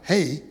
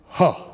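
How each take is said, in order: First: It is said with a full 'ay' vowel. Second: It is said as a short breathy 'huh'. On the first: The speaker calls it wrong. "you don't pronounce it H-E-Y" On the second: The speaker calls it right. "it's pronounced huh"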